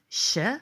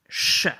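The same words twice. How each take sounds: First: The sound is soft and light. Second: The sound is harsh and strong. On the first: The speaker calls it wrong. "in English, it's a little bit softer" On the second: The speaker calls it right. "In Croatian, it's a little bit stronger and harsher"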